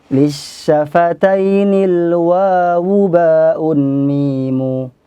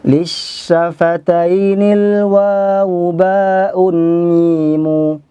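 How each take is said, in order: No difference in how they are said.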